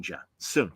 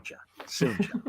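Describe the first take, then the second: First: Low, soft drawn-out tease; lightly mocking, low and soft; soft teasing. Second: Whispered drawn-out tease; whispered singsong taunt; teasing whisper. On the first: Teasing repeated, quieter each time. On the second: Retold or imitated. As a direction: breathe it out as a mock taunt. Teasing repeated, now unvoiced.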